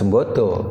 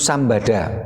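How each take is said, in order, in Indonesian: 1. Vokal-vokalnya dilafalkan sebagai 'e' dan 'o'. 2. Semua vokalnya dilafalkan sebagai 'a'. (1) "bacanya bukan juga bukan Sembodo" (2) "Jadi Sambada"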